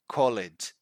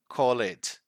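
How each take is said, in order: Both takes have the same delivery.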